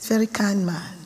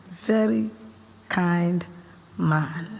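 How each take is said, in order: First: Said in the usual way. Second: Very, kind, man each said apart with pauses; slow emphatic pauses. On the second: Shown as a demonstration.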